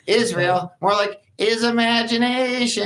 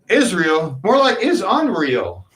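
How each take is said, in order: First: It is said in a SpongeBob voice. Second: It is said in his normal voice.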